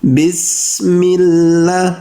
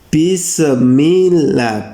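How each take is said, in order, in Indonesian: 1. Bunyi s langsung menyambung ke m tanpa vokal. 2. Terdengar vokal e tambahan di antara s dan m. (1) "jangan sampai terputus ya, tetap tetap mengalir ya" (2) "ada e-nya di situ"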